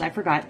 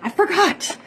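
First: Said in the usual way. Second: I forgot sung out much higher, rising; high, sing-song forgot with a rising end; mock guilty. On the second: Shown as a demonstration. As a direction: play the guilty friend, voice jumping up on forgot. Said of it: "what a horrible friend am I".

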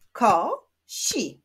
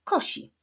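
First: "Ko-si" as two separate beats; split into syllables. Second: Said in the usual way. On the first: Shown as a demonstration. Teacher clapping syllables of kosi, split into beats. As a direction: clap out "Ko-si" with a pause between. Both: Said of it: "Wyklaszczmy sylaby w tych wyrazach".

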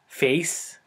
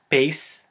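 First: Said in the usual way. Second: "pace" for face, punched louder; Filipino-accented "pace". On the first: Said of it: "for example". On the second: Shown as a demonstration. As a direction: say "pace" with a P in place of F. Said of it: "There's no F sound".

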